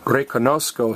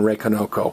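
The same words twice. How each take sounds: First: It has a z sound before the k. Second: It has no z sound before the k. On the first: The speaker calls it right. "reconozco sounds better" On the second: The speaker calls it wrong. "than reconozco"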